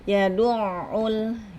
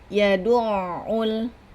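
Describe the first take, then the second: No difference in how they are said.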